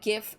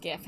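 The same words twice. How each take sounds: First: GIF with a hard G; GIF starting as in "go"; insisted pronunciation. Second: GIF with a soft G; GIF starting with a J sound; rejected pronunciation. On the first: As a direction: say GIF like "gift" without the T. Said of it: "is pronounced gif". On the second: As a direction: say GIF as "jiff". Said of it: "and not gif". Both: Shown as a demonstration.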